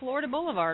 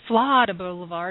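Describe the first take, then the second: First: Florida is said in the speaker's usual way. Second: Florida is said the local Baton Rouge way. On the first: This is the speaker's own way of saying it. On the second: This is how the locals say it.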